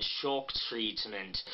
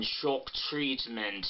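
First: Low, slow, exaggerated "Shock Treatment"; exaggerated Pat Quinn vowels, softer; Pat Quinn impression. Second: Slow, small rounded O in "Shock Treatment"; Pat Quinn impression. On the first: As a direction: drop low and stretch "Shock". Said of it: "very low, very exaggerated". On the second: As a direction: tight jaw, drawn-out "Shock". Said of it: "like when she says the O in". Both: Shown as a demonstration.

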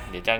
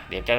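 Both takes have the same delivery.

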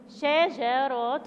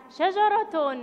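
First: شجرة drawn out very slowly; slow teaching pronunciation of شجرة; syllable by syllable. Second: Said in the usual way. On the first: Shown as a demonstration. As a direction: stretch each syllable of شجرة for young learners. Teacher models word syllable by syllable.

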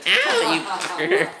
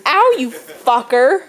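First: Very high, drawn-out yelp; mock pained squeal. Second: Loud, drawn-out yelp of complaint; mock pained yell. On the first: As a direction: act out being hit in a squeaky high voice. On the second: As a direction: cry out as if just hit, slowly. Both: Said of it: "it should have been".

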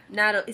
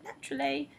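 First: Said in the usual way. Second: Demonstrated English accent, pitched up; typical English accent. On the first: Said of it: "like, a normal accent". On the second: Shown as a demonstration. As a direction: put on a textbook English "naturally". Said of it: "a typical English accent".

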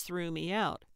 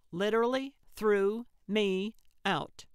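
First: Said in the usual way. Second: "literally threw me out" with each word separated and stressed; emphatic word by word. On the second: A narrator's reading. Gertrude confirms to Calvin, "literally threw me out" spaced out emphatically. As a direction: punch "literally", then pause between "threw", "me" and "out".

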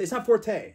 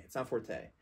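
First: Forte mock-shouted much higher and louder, stress on not; fed-up cry correcting the viewers; exasperated. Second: Said in the usual way. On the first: Real, not acted. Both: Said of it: "stop pronouncing it forte".

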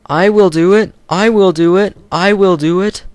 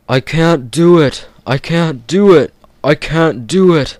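First: Much higher, loud determined puffing chant; puffing Edward. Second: Loud, higher puffing engine chant; puffing Gordon. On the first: Edward pushing hard from behind, high determined puffing. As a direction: chug it with brave determination. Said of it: "puffed Edward". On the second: Gordon straining up the hill, loud puffing chant. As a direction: chug out the words in despair. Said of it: "puffed Gordon". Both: Acted.

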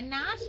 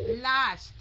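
First: "last" turned into "nast"; mistaken N sound. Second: "last" with a clear initial L; correct L sound. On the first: Teacher echoing the student's slip, N-sound "last". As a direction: begin "last" with N instead of L. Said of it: "Không phải last". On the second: Teacher giving the student the model, clear L in "last". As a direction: land firmly on the L of "last". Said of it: "Last chứ không phải là last". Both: Shown as a demonstration.

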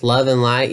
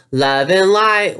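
First: Flat, doubtful echo of the phrase; skeptical echo. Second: High, slow, sing-song guru voice; airy, preachy spiritual parody; mocking spiritual guru. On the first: Real, not acted. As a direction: repeat it back in disbelief. Echoes the phrase back skeptically.

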